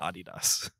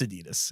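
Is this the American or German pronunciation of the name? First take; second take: German; American. First: It is said the German way. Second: It is said the American way. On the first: The speaker calls it wrong. "It's not Adidas" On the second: The speaker calls it right. "But here Adidas. I'm like, it's Adidas"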